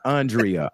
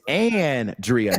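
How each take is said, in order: First: The name begins with an 'ahn' sound. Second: The name begins with an 'an' sound. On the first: The speaker calls it wrong. "not Andrea. Andrea is U A U N" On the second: The speaker calls it right. "It's Andrea, Yours is A N"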